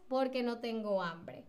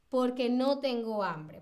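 First: "Porque" joined, falling away softly to the end; respuesta con porque. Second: "Porque" as one quick word, falling answer; respuesta con porque. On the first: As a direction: answer lower after the question, "Porque" unstressed. ("Porque" junto y átono, en tono descendente) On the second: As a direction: explain with "Porque" unstressed on the final e. ("Porque" junto y sin acento, como respuesta) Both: Shown as a demonstration. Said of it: "fíjense en cómo estoy pronunciando".

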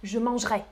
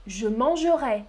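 First: "mangerai" clipped to two syllables, mange-rai; "mangerai" the quick Paris way; Parisian pronunciation. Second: "mangerai" with every syllable said, man-ge-rai; "mangerai" in the southern French way; southern pronunciation. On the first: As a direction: drop the e in "mangerai": "manj-ré". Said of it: "Moi, je prononce". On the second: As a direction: keep the e in "mangerai", three full syllables. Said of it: "Prononcez comme ça". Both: Shown as a demonstration.

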